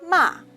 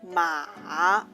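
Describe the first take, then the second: First: The pitch falls sharply from high to low. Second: The pitch dips low and then rises. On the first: "The last one is a falling tongue" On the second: "Low rising tongue"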